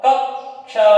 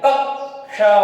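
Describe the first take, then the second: The two takes are said the same way.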